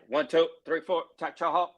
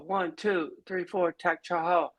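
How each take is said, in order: First: It is said loudly and with fierce energy. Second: It is said weakly and without force.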